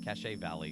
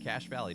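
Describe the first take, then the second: First: Cache is two syllables, sounding like cash-ay. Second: Cache is one syllable, sounding like cash. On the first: The speaker calls it wrong. "No one says cachet" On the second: The speaker calls it right. "It's pronounced like cash"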